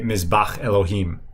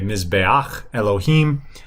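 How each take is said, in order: First: The vowel is plain and short, with no glide. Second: The vowel glides before the final consonant. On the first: The speaker calls it right. "you'd say mizbach Elohim" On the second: The speaker calls it wrong. "you wouldn't say mizbeach Elohim"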